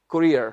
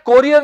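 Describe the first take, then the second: First: The first syllable sounds like 'koo'. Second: The first syllable sounds like 'koh'. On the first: The speaker calls it right. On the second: The speaker calls it wrong. "कोरियर नहीं"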